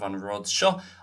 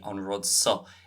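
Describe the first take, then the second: First: It has the standard Irish 'sh' sound. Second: It has the Munster 's' sound, not 'sh'.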